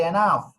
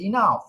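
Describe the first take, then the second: First: এনাফ with an open e at the start, e-naf; mispronunciation demo. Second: ইনাফ with a short i at the start, i-naf; correct pronunciation. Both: Shown as a demonstration. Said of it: "না, শব্দ সঠিক নয়".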